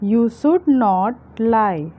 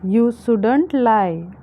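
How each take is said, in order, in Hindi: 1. दोनों शब्द पूरे बोले जाते हैं, संक्षिप्त नहीं। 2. दोनों शब्द मिलकर एक हो जाते हैं। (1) "should not" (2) "should not के कॉन्ट्रैक्शन को हम shouldn't कहते हैं"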